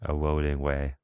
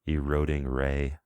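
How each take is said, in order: First: The last word starts with a W sound. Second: The last word starts with a clear R sound.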